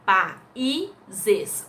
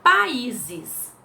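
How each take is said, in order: First: "países" said split as pa-í-ses; syllables split. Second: Said in the usual way. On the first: Shown as a demonstration. Teacher splitting "países" for students. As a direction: stress the í in "países" apart from the a. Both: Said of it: "o i sozinho".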